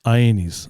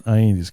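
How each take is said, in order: First: "Aenis" said slowly, each syllable clear, EYE-neez; over enunciating. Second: "Aenis" repeated slowly and clearly, EYE-neez; over enunciating. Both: Shown as a demonstration. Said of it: "So say it one more time slowly".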